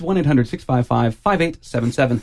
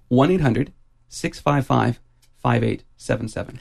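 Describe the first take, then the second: First: The number is said at a normal, faster pace. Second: The number is said slowly and deliberately.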